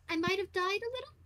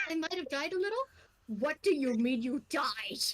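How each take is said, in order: First: Sheepish, hesitant admission with a high lilt on the end; sheepish confession. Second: Auto-translation. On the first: Belle sheepishly admits to the samurai he died. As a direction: play down a death like a small mishap. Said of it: "No, uh, how do I put this?". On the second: Fran's translator repeats the samurai's words mechanically. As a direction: read it out like a translation device. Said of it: "you just hear Fran auto-translate of". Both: Acted.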